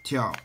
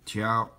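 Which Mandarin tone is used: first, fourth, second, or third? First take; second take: fourth; first. First: The pitch falls sharply from high. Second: The pitch stays high and level.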